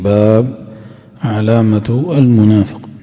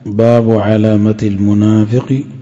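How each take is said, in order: First: The word bab ends on a silent consonant. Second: The word bab ends with a short vowel.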